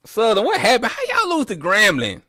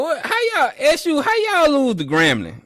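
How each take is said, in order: First: Mock disbelief. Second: Mock disbelief, much higher. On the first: Mocking Southern fans. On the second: Mocking Southern fans again. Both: Real, not acted.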